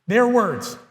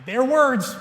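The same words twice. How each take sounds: First: "Their" carries the weight, "words" falls away; "Their words" with the push on "Their"; stress on their. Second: "words" lifted higher and pressed; "Their words" with the rise and push on "words"; stress on words. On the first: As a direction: hit "Their" to pin it on them. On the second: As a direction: land the weight on "words", not "Their". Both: Shown as a demonstration.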